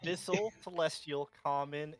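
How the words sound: It is said in a natural voice.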